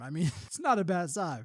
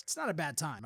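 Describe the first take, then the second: First: Repeats it with a real laugh breaking in. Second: Dropped low and soft, an offhand aside; tossed off under the breath; plain. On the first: Owning up to listeners about the car, laughing. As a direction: chuckle through the admission. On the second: Telling listeners about the car, softly muttered. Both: Real, not acted.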